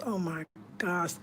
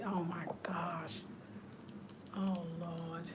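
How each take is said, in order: First: Said in the usual way. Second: Slow, much softer whisper. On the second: Real, not acted. Vlogger overwhelmed by the gift, whispering. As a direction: breathe it out in awe.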